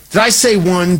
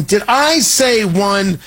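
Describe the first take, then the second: First: Said in the usual way. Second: "Did I say one?" slowed, stress on "I"; feigned disbelief, drawn out, leaning on "I"; mock double take. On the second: Shown as a demonstration.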